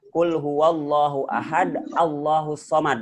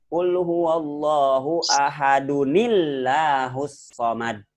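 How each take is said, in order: First: Ahad ends with a stop, no nun sound. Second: Ahad runs on with 'un' into the next word. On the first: The reader pauses at the end of the verse. "Kalau dibaca wakof begini kan" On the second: The reader joins the verse to the next one. "kalau di wasol dibacanya begini"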